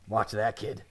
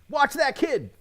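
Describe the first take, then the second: First: It sounds like a menacing, threatening announcement. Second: It sounds like a caring, cautionary warning. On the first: The driver is about to hit the child. "like he's gonna hit the kid" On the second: Be careful around the child. "It could either be"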